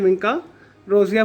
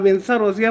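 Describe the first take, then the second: First: The middle consonant is a k sound. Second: The middle consonant is an s sound. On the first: "या विंका रोजिया बोल लें, दोनों ठीक हैं" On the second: "आप विंसा रोजिया बोल लें"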